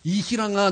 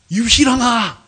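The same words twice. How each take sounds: First: Said in the usual way. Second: Loud, higher retold call; shouted summons by name. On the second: Calls the name out again.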